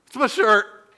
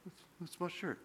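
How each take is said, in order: First: Louder, firm "It's my shirt" after being told to speak up. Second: Very soft, hesitant mumble of "It's, it's my shirt"; mumbled. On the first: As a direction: push "my shirt" out clearly. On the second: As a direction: swallow "my shirt" sheepishly. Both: Retold or imitated. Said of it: "Speak up".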